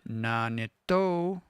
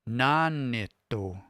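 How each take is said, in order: First: The pitch is high on a later syllable. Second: The pitch is high on the first syllable. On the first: The speaker calls it wrong. "I don't say nanito" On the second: The speaker calls it right. "listen to the way that I say this"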